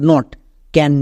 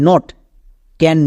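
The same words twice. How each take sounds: The two takes are said the same way.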